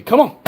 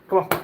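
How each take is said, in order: First: Loud, high, impatient call; calling the dog. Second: Said in the usual way. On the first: Real, not acted. Calling his lazy Great Dane to come, loud impatient call. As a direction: shout it across the yard at the dog.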